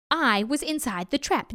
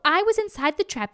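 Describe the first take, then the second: First: Patient but firm tiger; tiger explaining. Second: Higher, confident jackal voice; muddled jackal. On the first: Tiger explains to dim jackal. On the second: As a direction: parrot it back eagerly. Jackal wrongly parrots the tiger. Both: A narrator's reading.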